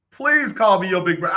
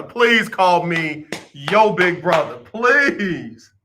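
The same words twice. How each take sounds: First: Said in the usual way. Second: Drawn-out begging; slow pleading. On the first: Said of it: "repeated request". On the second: Acted. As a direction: plead slowly, mock earnest. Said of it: "repeated pleading request".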